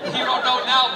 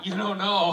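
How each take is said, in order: First: Louder, punching the word now; stress on now. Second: Said in the usual way. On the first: Real, not acted. Teasing the nine-year-old about growing up, stressing now. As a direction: lean hard on now, teasing. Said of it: "but wait till you're eighteen". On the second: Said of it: "I know".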